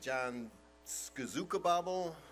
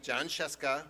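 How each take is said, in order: First: The surname is stretched into many garbled syllables. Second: The surname is said briefly in two syllables. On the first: Someone unfamiliar with the name is guessing. The speaker calls it wrong. "Or the teacher would say" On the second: The owner of the name says it. The speaker calls it right. "that's me"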